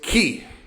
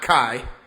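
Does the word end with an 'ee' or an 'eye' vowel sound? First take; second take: ee; eye. First: The vowel sounds like 'ee'. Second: The vowel sounds like 'eye'. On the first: The speaker calls it right. "It was key" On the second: The speaker calls it wrong. "not Kai"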